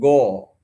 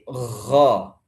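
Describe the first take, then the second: First: The gh is followed by an o vowel. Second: The gh is raspy like a kho sound. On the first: "tidak boleh dibaca o" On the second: "seperti ada kho ... itu nggak boleh"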